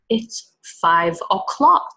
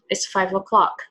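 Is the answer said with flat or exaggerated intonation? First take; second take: exaggerated; flat. First: It is slow with exaggerated intonation. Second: It is quicker with flat intonation. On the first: "it's like really textbook" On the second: "It's more flat"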